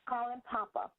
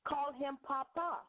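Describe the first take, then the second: First: The stress is on the first syllable. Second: The stress is on the last syllable.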